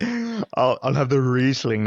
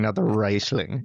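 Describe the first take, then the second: First: "Riesling" said the proper way, REES-ling; correcting pronunciation. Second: "Riesling" said wrong as RYES-ling, slowly; mispronounced. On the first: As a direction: stress the correct "Riesling" pointedly. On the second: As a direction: drawl the wrong "Riesling" with a long I. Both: Retold or imitated. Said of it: "he's like".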